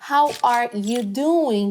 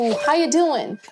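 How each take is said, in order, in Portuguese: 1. Cada palavra é dita separadamente, dura e robótica. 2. As palavras se juntam num fluxo suave e contínuo. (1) "Desse jeito bem robótico que ensinam os métodos tradicionais" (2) "eles falam juntando uma palavra na outra, muita conexão de fala"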